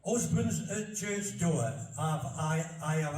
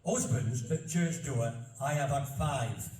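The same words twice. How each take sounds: First: Slow, broad Barnsley reading; slow recital in thick Yorkshire dialect. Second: Slow, deliberate broad Yorkshire recital; careful second read in Barnsley dialect; measured old verse in thick Yorkshire; reading in Yorkshire dialect again. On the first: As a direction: read the old verse in broad Yorkshire. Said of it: "when you read it in Old English". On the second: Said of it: "I'll say it again". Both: Shown as a demonstration.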